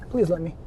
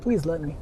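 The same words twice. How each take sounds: The two takes are said the same way.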